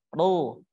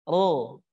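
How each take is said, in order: The two takes are said the same way.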